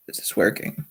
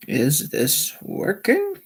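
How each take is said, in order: First: Quiet, low-key mic check; leise Testfrage. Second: Slow, higher, rising mic check; slow testing question. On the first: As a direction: ask it softly, half to yourself. Muttered check of the live stream. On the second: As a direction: draw out each word, lifting to a questioning end. Repeats the stream check, drawn out. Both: Real, not acted.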